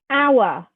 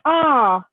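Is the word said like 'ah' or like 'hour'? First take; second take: like hour; like ah. First: The word sounds like 'hour'. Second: The word sounds like 'ah'. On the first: The speaker calls it wrong. "I'll go, hour, like that" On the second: The speaker calls it right. "no, that's not how you say it. It's ah"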